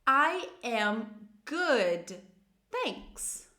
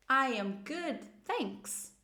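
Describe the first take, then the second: First: Very slow, each word stretched and separated; slow model phrase. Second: Said in the usual way. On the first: Shown as a demonstration. Teacher introduces first positive answer, very slowly. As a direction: spell it out word by word for learners. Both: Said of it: "a gente vai começar com as positivas".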